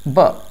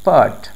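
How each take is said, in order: First: The t sound is dropped. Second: The t sound is clearly pronounced. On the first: "British accent में" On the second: "neutral accent में"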